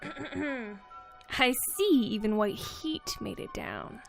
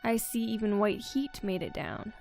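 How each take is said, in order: First: It is said in a creepy character voice. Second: It is said in a plain reading voice.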